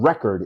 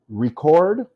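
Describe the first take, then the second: First: REC-ord, front-stressed with weak ending; stress on first syllable. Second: Re-CORD, rising on a louder CORD; stress on second syllable. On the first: Teacher contrasting the noun record, stressed on REC. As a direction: say record as REK-erd. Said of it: "record is a noun". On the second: Teacher contrasting the verb Record, stressed on CORD. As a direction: lift and hit the end of Record. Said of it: "is a verb". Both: Shown as a demonstration.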